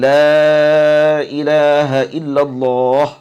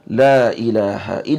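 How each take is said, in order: First: The vowel of the first word is drawn out long. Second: The vowel of the first word is kept short. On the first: "Memanjangkan alif la an-nafiyah" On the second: "au qasruha"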